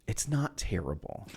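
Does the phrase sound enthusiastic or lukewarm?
lukewarm. It is said in a flat, lukewarm way. The thing is merely acceptable. The speaker calls it wrong. "You didn't say it was good though"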